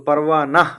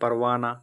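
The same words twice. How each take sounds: First: The word ends with an audible h sound. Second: The word ends in a plain vowel, no h. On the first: This is how the word is written. "असल लिखा हुआ है" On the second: This is how people actually read it. "हम लोग पढ़ते हैं"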